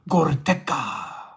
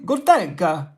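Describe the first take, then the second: First: The name is said in a rough, tribal-sounding way. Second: The name is said with an Italian-sounding flair. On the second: "Is it Italian?"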